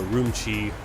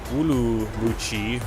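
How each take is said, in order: First: The name is pronounced with English sounds. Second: The name is pronounced with Chinese sounds.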